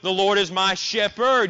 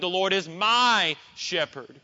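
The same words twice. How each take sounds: First: The stress is on the word shepherd. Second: The stress is on the word my. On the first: "Or you could place it on the word shepherd" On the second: "You could place it on the word my"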